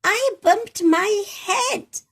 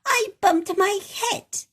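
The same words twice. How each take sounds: First: High, slow, louder sulky repeat; cross little voice. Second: Higher, louder sulky rabbit voice; cross little voice. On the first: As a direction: stretch it out, crosser the second time. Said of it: "answered the cross voice again". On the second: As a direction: grumble it like a cross little girl. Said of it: "A rather cross little voice". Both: Acted.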